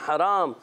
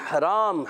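Both takes have the same delivery.

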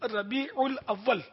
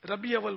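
First: The linking syllable 'ul' is pronounced between words. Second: The linking syllable 'ul' is left out entirely. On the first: The speaker calls it right. "ربیع الاول آپ نے کبھی سنا ہے عوام سے؟" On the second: The speaker calls it wrong. "ربیع اول بولتے ہیں"

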